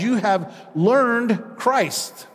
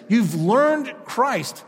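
First: "You have learned Christ" slow, YOU leaned on; preacher slowly stressing "You have learned Christ". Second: "You've learned Christ" slow, weight on "learned"; stress on learned. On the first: Preacher reading Paul's words to congregation, slow and stressed. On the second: Preacher repeating Paul's words, stressing learned. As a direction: drag out "learned" slowly. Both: Shown as a demonstration. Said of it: "That's how he, he says it".

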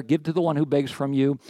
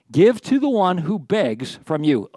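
First: Said in the usual way. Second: "Give to the one who begs from you" read slow and emphatic; slow scripture reading. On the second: Shown as a demonstration. Pastor reading the verse to the congregation, slow and weighty. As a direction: lean on each word like reading scripture aloud. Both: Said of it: "Hey, real quick thought there".

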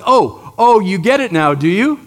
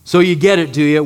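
First: Mocking oh, oh, a bit louder; sarcastic. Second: Dry, mock-questioning sarcasm; sarcastic. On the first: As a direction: tease them with dry sarcasm. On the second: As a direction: needle the disciples sarcastically. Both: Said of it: "there's a hint of sarcasm".

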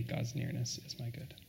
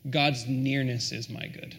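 First: Soft echo. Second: Savoured quote. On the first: Repeats quote much softer. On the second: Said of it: "I love this". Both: Real, not acted.

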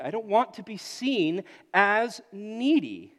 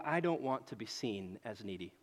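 First: Slow, louder proud insistence; emphatic declaration. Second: Low, soft muttered inner thought; quiet inner voice. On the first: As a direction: declare it slowly and proudly, leaning in. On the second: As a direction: say it to yourself, hushed and low. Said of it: "I look at this and I go". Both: Retold or imitated.

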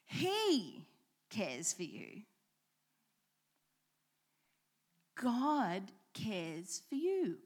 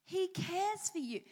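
First: He set apart, then cares rising; stress on cares. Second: He lifted high and leaned on; stress on he. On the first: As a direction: pause after He, lift cares. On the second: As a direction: hit He, let the rest fall. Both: Shown as a demonstration. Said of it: "let's change the emphasis".

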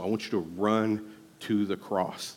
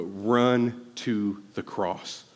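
First: Said in the usual way. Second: Slow way down and lean on run to the cross; slow, drawn-out emphasis. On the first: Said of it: "but run to the cross". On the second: Shown as a demonstration. Pastor urging the church, slow and deliberate. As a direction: run to the cross stretched very slowly, each word weighted.

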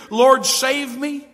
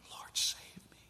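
First: Louder, higher, drawn-out plea; exclaimed plea. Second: Very soft whisper; whispered plea. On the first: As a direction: read it out with an exclamation point. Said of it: "there's an exclamation point". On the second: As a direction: breathe the plea almost silently. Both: Acted.

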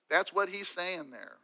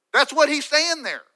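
First: Softer and slower, letting it sink in; soft slow restatement. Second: Much higher and louder, driving the point home; emphatic declaration. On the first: Preacher repeats the point to listeners, soft and slow. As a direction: pull back and let the words settle. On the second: Preacher drives David's point home, loud and high. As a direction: hammer the line out to the congregation. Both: Real, not acted.

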